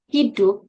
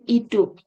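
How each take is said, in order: First: The initial 'h' sound is pronounced. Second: The initial 'h' sound is dropped. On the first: This is the standard form. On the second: This shows Javanese interference.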